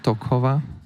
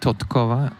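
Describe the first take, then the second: First: No t sound comes before the k. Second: A t sound comes before the k. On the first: The speaker calls it wrong. "not Tokova" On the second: The speaker calls it right. "There should be Totkova"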